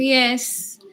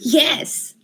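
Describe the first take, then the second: First: It sounds reluctant and unwilling. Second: It sounds eager and willing. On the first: The person agrees without really wanting to. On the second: The person truly wants to agree.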